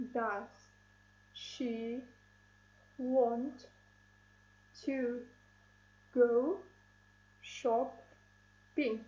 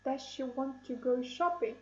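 First: "Does she want to go shopping?" spoken slowly, each word set apart by a long pause. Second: Said in the usual way. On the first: Shown as a demonstration. Teacher counting syllables for the class, each word separated by pauses. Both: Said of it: "let's count syllables in this sentence".

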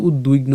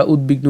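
First: উদ্বিগ্ন as ud-duigno, the b turned into ui; w glide for b. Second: উদ্বিগ্ন as ud-bigno, with a clear b; hard b. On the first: Teacher shows the rejected form, উদ্বিগ্ন said ud-duigno. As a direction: say উদ্বিগ্ন with dui in place of bi. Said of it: "আমরা কিন্তু উদ্বিগ্ন উচ্চারণ করি না". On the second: Teacher shows the accepted form, উদ্বিগ্ন said ud-bigno. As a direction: sound the b in উদ্বিগ্ন. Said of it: "আমরা উদ্বিগ্ন উচ্চারণ করি". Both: Shown as a demonstration.

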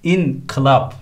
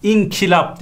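First: INKILAP with ı after k, slowly; correct pronunciation. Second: İNKILAP as "inkilap"; wrong pronunciation. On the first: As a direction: say inkılap as in-kı-lap. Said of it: "şeklinde yazılması lazım". (inkılap doğru, ı ile) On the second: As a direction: say inkılap with a dotted i after k. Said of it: "değil". (inkılap yanlış, "inkilap") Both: Shown as a demonstration.

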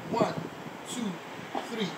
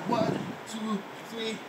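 No difference in how they are said.

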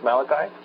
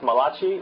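First: Malachi said as MAL-uh-kye; MAL-uh-kye for Malachi, stress up front; correct pronunciation. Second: Malachi said as muh-LAH-chee; Italian-sounding "ma-LAH-chee" for Malachi; mispronunciation. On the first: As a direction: end Malachi on a hard k and "eye". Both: Shown as a demonstration. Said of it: "It is not pronounced Malachi".

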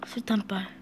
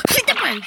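First: 수류탄빨 whispered low and soft; whispered mutter. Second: 수류탄빨 cried out high and sharp; high exclaim. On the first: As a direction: mutter 수류탄빨 under breath. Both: Real, not acted. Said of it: "repeated 수류탄빨".

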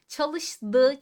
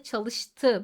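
First: Çalıştı said like çalışdı; wrong soft d. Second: Çalıştı with a crisp t; correct hard t. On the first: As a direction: say Çalıştı with a voiced d. (yanlış, yumuşak d ile) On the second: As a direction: say çalıştı with a sharp t. (doğru, sert t ile) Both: Shown as a demonstration. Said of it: "Bakın fark ettiniz mi".

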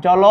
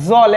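First: জল said the Sanskrit tatsama way, with an অ vowel sounded after ল. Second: জল said the everyday Bengali way, ending on the consonant with no vowel after ল. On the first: Teacher showing students the Sanskrit জল with its final অ. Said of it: "অ আছে". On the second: Teacher showing students the usual Bengali জল, ending on ল. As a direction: say জল as a plain Bengali word, closed at the end. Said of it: "আমরা সাধারণত কিন্তু জল বলি". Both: Shown as a demonstration.

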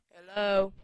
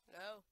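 First: Loud hello to get a response; insistent call. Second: Soft, questioning hello; tentative call. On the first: Player calling to a stalled game, loud and insistent. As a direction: call out sharply to something not answering. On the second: Player asking a stalled game if it is loading, softly. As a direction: check quietly whether anything responds. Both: Real, not acted.

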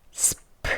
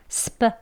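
First: "스프" as s plus breath-puffed p; separate s, p. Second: "스프" with p tightened to Korean pp; tense p. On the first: Teacher shows each sound's own value, aspirated "스프". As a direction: release the p in "스프" with a puff of air. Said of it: "각각의 음가 소리는 스프". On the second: Teacher shows p after s, short tense "스프". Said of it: "또 된 소리로". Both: Shown as a demonstration.

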